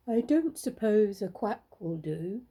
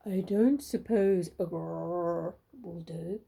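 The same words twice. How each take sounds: First: Slow, lightly voiced duck; a hint of a hopeful duck, slowly; duck asking. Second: Slow, low, big bear voice; grizzly bear asking. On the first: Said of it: "asked the duck". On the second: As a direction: rumble it slowly like a huge bear. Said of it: "asked the great big grizzly bear". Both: A narrator's reading.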